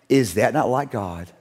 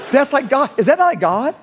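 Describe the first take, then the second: First: Slow reflective. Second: Much higher and louder, laughing through it; laughing wonder. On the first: Preacher pondering the town's revival before the congregation, hushed. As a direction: ask it gently, in awe. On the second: Preacher telling the congregation his awed reaction, laughing. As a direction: marvel aloud with delighted laughter. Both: Real, not acted.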